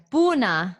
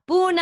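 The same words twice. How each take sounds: First: Said in the usual way. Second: Buna said much higher and louder; exaggerated Buna, higher and louder; hammed-up Buna. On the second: Shown as a demonstration. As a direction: belt out Buna for fun. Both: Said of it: "I like that".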